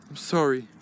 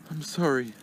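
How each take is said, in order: Both takes have the same delivery.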